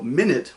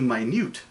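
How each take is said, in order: First: The stress is on the first syllable. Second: The stress is on the second syllable. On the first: A unit of time. "a measurement of time" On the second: Very small. "put the emphasis on the second half of the word"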